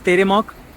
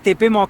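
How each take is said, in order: First: The second consonant is an R sound. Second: The second consonant is a P sound. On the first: The speaker calls it right. "लेकिन it's pronounced as तेरेमॉक" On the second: The speaker calls it wrong. "ऐसा लगता है कि तेपे मॉक है"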